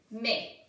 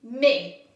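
First: Said in the usual way. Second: Mais said much louder, falling; a loud first model of mais. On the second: Shown as a demonstration. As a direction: announce mais firmly. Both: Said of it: "le mot mais".

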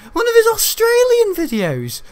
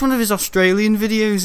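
First: Slow, very high, loud outcry; high mock shout. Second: Said in the usual way. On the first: Gamer repeating himself about Australian videos, high mock shout. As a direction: squeal it out, drawn out and loud.

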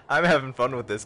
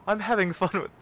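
First: Said in the usual way. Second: High British butler voice; British butler accent. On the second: Pretend. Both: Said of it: "breaking into my regular voice".

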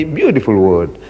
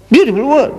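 First: Said in the usual way. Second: A wry, raised-eyebrow beautiful word; ironic. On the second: Real, not acted. Preacher mocking how the word has changed, ironic. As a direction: sing it high, mock admiring.

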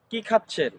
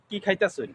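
First: Said in the usual way. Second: কি খাইতাছেন drawn into "khai-ta-sun"; Gazipur dialect. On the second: Shown as a demonstration. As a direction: say কি খাইতাছেন with soft s for the chh. (গাজীপুরের উচ্চারণে কি খাইতাছেন) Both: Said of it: "আমাদের আঞ্চলিক ভাষায় বলি".

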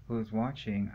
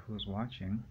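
First: Said in the usual way. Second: A touch of paranoia in the question; mildly uneasy. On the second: Retold or imitated. Alone in the room, imagining watchers, mildly uneasy. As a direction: ask it as if glancing over your shoulder. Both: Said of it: "but I'm looking around like".

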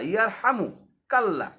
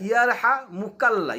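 First: "ইয়ার হামু কাল্লাহ" with হামু kept together, then কাল্লাহ; correct pronunciation. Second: "ইয়ার হা মুকাল্লাহ" with a break after হা and মুকাল্লাহ run together; common mispronunciation. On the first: Teacher giving students the correct ইয়ার হামু কাল্লাহ. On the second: Teacher showing students the common mistake in ইয়ার হা মুকাল্লাহ. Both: Shown as a demonstration. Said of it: "এই শব্দটা অনেকেই গোলায় ফেলে".

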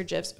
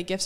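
First: "gifs" with a soft G like J. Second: "gifs" with a hard G as in gift. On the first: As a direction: say "gifs" starting like "jiffy". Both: Shown as a demonstration. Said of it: "are they gifs or gifs".

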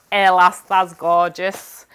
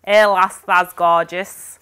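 First: Loud "Hey lass", slow drawn "that's gorgeous"; broad Yorkshire phrase. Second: Yorkshire "Hey lass", slow drawn "that's gorgeous"; broad Yorkshire phrase. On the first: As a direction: read the Yorkshire slogan with relish. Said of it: "another little bag". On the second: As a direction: savour the Yorkshire saying. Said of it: "I've got". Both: Shown as a demonstration.

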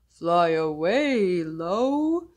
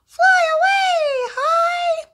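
First: Deeper slow voice; low voice. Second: Much higher and louder squeak. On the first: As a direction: drop your voice down low. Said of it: "one named Low". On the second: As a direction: shoot your voice way up high. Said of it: "one named High". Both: Shown as a demonstration.

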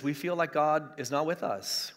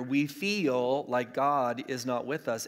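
First: Said in the usual way. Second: "feel" drawn out, with the whole phrase slowed; stress on "feel". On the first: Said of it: "I emphasize the word feel". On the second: Shown as a demonstration. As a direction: lean hard on the word "feel" and stretch it. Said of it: "I emphasize the word feel here".

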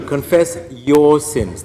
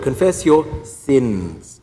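First: Slow, loud, with "your" hit hard; stress on your. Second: Slow, loud, "sins" hit hard; stress on sins. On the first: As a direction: lean on "your" in "confess your sins". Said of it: "They must be yours". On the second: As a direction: punch "sins" in "confess your sins". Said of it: "Third word". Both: Shown as a demonstration.

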